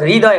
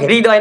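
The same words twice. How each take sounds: First: The word has a Bengali-style pronunciation. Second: The word has a standard Hindi pronunciation. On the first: The speaker calls it wrong. "वो लोग हृदय बोलते हैं" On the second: The speaker calls it right. "वो लोग हृदय नहीं बोलते"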